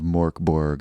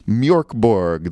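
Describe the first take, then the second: First: The first vowel is a plain o sound. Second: The first vowel has the umlaut sound.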